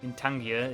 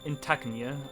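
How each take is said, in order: First: The middle sounds are in order, like 'Tangir'. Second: The middle sounds are swapped, like 'Tagnir'. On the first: The speaker calls it right. "In Tangier is his name, though" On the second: The speaker calls it wrong. "he in my head, he is in Tagnir"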